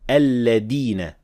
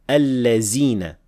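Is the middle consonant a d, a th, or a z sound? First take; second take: d; z. First: The middle consonant is a d sound. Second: The middle consonant is a z sound. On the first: "mispronounce it as dal" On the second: "mispronounced as allazina with zay"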